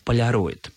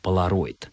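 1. Л мягкое, как в слове полярный. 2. Л твёрдое, по-западному. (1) "по аналогии с словами «полярный», «полярник», «полюс» писалось и произносилось только как «полароид»" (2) "стали произносить это слово на западный манер"

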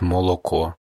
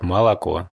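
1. Безударные гласные произносятся как 'o'. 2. Безударные гласные произносятся как 'a'. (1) "как в некоторых других регионах" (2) "москвичи, они немножко акают"

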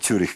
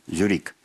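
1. Слово начинается со звука 'ts'. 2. Слово начинается со звука 'z'. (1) "это Цюрих" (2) "что за город такой французы его произнесли"

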